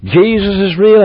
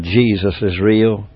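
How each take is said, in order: First: Higher and bolder, ringing it out; fervent preacher's declaration; preached proclamation. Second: Softer, slow, low and tender; hushed, slow comfort for a young prisoner; gentle quiet reassurance. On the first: Real, not acted. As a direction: proclaim it to the congregation. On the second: Retold or imitated. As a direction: say it softly to comfort a lonely boy. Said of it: "I said".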